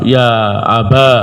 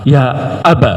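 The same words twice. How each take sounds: First: The word ends in a long a vowel. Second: The word ends in a short a vowel. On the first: "ya-nya diganti alif" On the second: "alifnya dibuang dan dicukupkan dengan harakat fathah"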